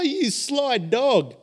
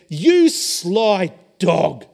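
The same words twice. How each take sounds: First: It is said in a joyful tone. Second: It is said in an angry tone. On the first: The speaker is delighted by a friend's secret. "But if someone joyously says" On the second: The speaker has been deceived and is upset. "They're angry"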